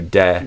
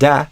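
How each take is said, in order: First: The vowel is mid, like 'eh'. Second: The vowel is open, like 'ah'. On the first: The speaker calls it right. "Whereas I would do de" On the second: The speaker calls it wrong. "it kind of floated more towards ah"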